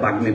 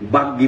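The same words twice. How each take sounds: First: The middle is a g-m cluster. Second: The middle is a doubled g sound. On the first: This is the Sanskrit or Hindi way of saying it. The speaker calls it wrong. "বাংলায় বাগ্মী বলে না" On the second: This is the Bengali way of saying it. The speaker calls it right. "বাংলায় গয় গ দুবার উচ্চারণ হবে"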